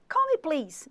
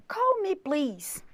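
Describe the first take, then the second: First: Said in the usual way. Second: Slow, careful model phrase; slow demo. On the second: Shown as a demonstration. Teacher models the phrase slowly for students. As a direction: stretch out "Call me, please" slowly. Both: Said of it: "se você falar assim".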